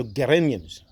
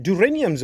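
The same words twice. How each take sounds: First: "geraniums" begun with a hard G; hard G pronunciation. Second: "geraniums" begun with a soft J sound; soft G pronunciation. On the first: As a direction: say "geraniums" as geh-RAY-nee-ums, G as in get. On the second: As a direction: say "geraniums" as juh-RAY-nee-ums. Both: Shown as a demonstration. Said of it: "Is it geraniums or geraniums?".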